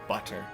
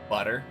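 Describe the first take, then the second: First: The middle consonant is a crisp T sound. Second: The middle consonant is a soft D-like tap. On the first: "it takes more effort for me to say it" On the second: "like B U D E R"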